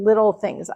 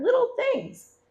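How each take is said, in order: First: Said in the usual way. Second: Squeaky, much higher little voice on "little things"; cute high voice. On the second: Pretend. Telling viewers about her small purchases, in a tiny high voice.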